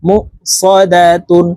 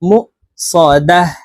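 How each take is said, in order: First: The word ends in -tun with a final n. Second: The word ends in a still h sound. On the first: The reading continues without stopping. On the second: The reader stops at this word.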